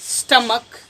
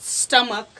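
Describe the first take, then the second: No difference in how they are said.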